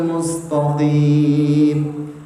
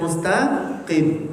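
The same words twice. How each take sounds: First: The t sound is heavy and thick. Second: The t sound is light and thin. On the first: The speaker calls it wrong. "bukan seperti ini" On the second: The speaker calls it right. "harusnya dibaca mustaqim"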